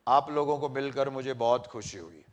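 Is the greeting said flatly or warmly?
flatly. It is said flatly, without feeling.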